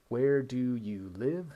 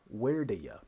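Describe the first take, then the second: First: "Where do you live" slow with each word separate; full textbook form. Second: "where do ya" with "you" cut to a quick "ya"; reduced speech. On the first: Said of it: "That becomes where do ya?". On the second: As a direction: slur "where do ya" together casually. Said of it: "That becomes". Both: Shown as a demonstration.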